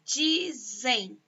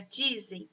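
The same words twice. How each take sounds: First: "dizem" drawn out as DI, ZEM; stretched, divided "dizem"; syllable by syllable. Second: Said in the usual way. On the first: Shown as a demonstration. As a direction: sound out "dizem" in two separate beats. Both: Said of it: "tem dois sons também".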